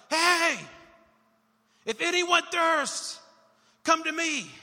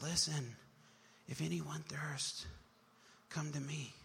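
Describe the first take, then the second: First: Shouted high and loud, slow; a bold cry to departing feast crowds; cries out. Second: Soft, timid mock Jesus; a hint of a meek preacher; meek, weak Jesus. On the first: Retold or imitated. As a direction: bellow it across the crowd. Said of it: "And Jesus cries out". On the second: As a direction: say it like a shy weak man. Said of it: "That's how we think that he ministered".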